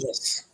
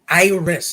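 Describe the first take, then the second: First: The name is pronounced the Spanish way. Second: The name is pronounced the English way. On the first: "but I say" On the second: "like the flower"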